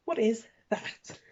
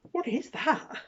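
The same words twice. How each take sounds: First: Drawn-out flat disbelief; slow disbelief. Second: High, loud disbelief; incredulous. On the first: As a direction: say it slowly, unimpressed. Repeat, slower. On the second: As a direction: ask it in disbelief. Pointing at odd bit. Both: Real, not acted.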